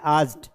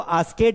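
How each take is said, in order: First: The ending joins the word as one syllable. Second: The ending is said as an extra syllable. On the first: The speaker calls it right. "आस्क्ड पढ़ना है" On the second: The speaker calls it wrong. "इसको आस्केड नहीं पढ़ना है, कई बच्चे गलती करते हैं"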